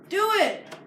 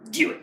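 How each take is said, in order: First: It is said in his ordinary voice. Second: It is said in an impression of Sid.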